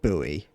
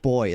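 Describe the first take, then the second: First: The word is said as two syllables, 'boo-ee'. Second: The word is said as one syllable, like 'boy'. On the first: The speaker calls it wrong. "and not buoy" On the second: The speaker calls it right. "I pronounce it boy as well"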